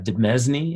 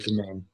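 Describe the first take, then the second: First: The word is not said like domain. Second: The word is said like domain. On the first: The speaker calls it wrong. "Is that how you say it?" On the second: The speaker calls it right. "it's pronounced domain"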